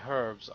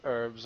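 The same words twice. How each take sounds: First: The word starts with an h sound. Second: The word starts without an h sound. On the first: This is the speaker's own British way of saying it. "we say herbs, because there's a fucking H in it" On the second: This is the American way of saying it. "The Americans say herbs"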